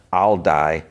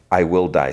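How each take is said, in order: First: Said in the usual way. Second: "I will" said as two full, separate words; deliberate, formal "I will die"; uncontracted "I will". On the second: Shown as a demonstration. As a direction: spell out "will" in full, no contraction. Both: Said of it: "she doesn't use the contractions there".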